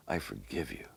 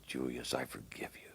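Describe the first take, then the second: First: "I forgive you" spoken low and hushed but voiced; soft, lower words of pardon; quiet voiced "I forgive you"; gentle forgiveness. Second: "Julius, I forgive you" breathed as a full whisper; unvoiced loving whisper into the ear; tender whisper. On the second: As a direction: whisper it as if holding him in your arms. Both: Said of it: "Just as if Jesus was holding".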